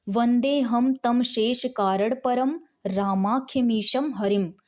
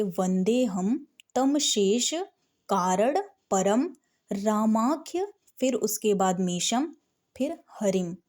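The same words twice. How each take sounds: First: Fluent chant. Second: "वंदे हम तम शेष" read slowly phrase by phrase with pauses; slow, broken up. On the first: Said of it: "जिसको पढ़ना आता होगा वो ऐसे पढ़ेगा". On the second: Teacher to beginner students, reading each piece slowly. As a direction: break the verse into small pieces for a beginner. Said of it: "तो आप धीरे धीरे पढ़ेंगे". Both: Shown as a demonstration.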